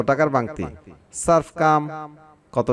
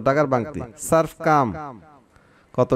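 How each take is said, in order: No difference in how they are said.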